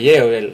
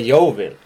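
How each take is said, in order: First: The name is said with a Norwegian pronunciation. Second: The name is said with an English pronunciation. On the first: "På norsk så sier du Yeovil" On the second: "Jeg har lært av en engelskmann at det heter Yeovil"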